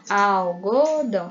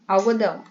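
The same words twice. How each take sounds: First: Slow "algodão", al... go... dão; "algodão" in three drawn-out beats; split into syllables. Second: Said in the usual way. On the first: Shown as a demonstration. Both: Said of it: "palavras em sílabas".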